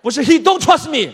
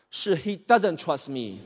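First: "he don't trust me" loud and high, mocking; mocking the mistake. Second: "he doesn't trust me" said slowly and carefully; correct grammar slowly. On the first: [name] mocking his friend's bad grammar, loud and high. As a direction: throw "don't" back at him. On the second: [name] correcting his friend's English, slow and deliberate. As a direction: spell out "doesn't" like a patient tutor. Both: Shown as a demonstration. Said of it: "我跟你说过很多遍了啊".

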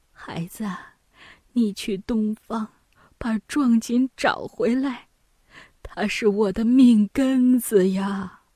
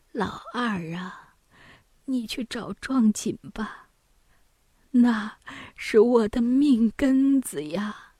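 First: Put-on weak old mother, faint start growing into a plea; weak mother pleading. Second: Faint, whispery start, slow drawn-out plea; feeble mother pleading. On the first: Mother begs eldest son to recover the brocade, weakly pleading. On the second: Acted. Bedridden mother begs second son for the brocade, feebly pleading. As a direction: plead weakly from a sickbed, dragging the words.

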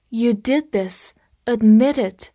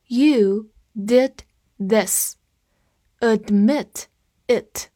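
First: "Admit it" run together, the t of Admit linked onto it; linked at natural speed. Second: Each word separate, slowly, for learners; slow read-along. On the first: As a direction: link "Admit it" into one smooth ad-mi-tit. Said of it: "这里读快了，就会有一个小连读在这里". (Admit it 连读，t 和 it 连在一起) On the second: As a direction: read it slowly, pausing between the words. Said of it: "跟着我慢读一遍". (慢速跟读，逐词停顿) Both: Shown as a demonstration.

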